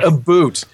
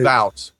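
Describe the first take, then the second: First: The vowel sounds like 'boot', a mocked accent. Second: The vowel sounds like 'boat', Canadian style.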